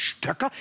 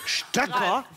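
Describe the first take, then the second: First: Stöcker asked with a high disbelieving rise; Stöcker? echoing her word in disbelief; incredulous. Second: Stöcker asked with a high disbelieving rise; Stöcker? can't believe she said it; incredulous. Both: Real, not acted. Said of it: "das hat sie doch jetzt nicht gesagt". (ungläubig, Stöcker? hoch ansteigend)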